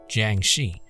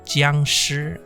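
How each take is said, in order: First: The name is said with English-style sounds. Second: The name is said with Mandarin sounds and tones.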